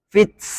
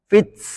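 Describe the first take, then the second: No difference in how they are said.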